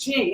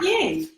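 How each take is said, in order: First: The double L is sounded like j. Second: The double L is sounded like y. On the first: The speaker calls it right. "Double L's are pronounced J, so it's Jing" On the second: The speaker calls it wrong. "It's not Ying"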